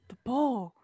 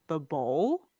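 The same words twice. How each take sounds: First: It sounds distressed and urgent. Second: It sounds like a puzzled question.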